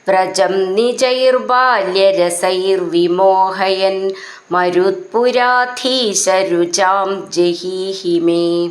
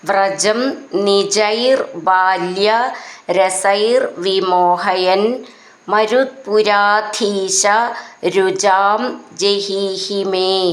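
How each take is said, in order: First: The words are run together without breaks. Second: The words are said separately with breaks between.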